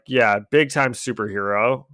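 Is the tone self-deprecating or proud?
self-deprecating. It sounds self-deprecating and downbeat.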